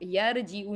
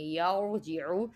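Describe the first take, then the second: First: The r is pronounced thin and light. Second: The r is pronounced thick and heavy. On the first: The speaker calls it wrong. "यर जीऊ नहीं पढ़ना" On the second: The speaker calls it right. "मोटा पढ़ेंगे"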